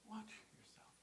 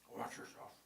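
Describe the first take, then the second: First: It is said kindly and gently. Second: It is said sternly, as a warning.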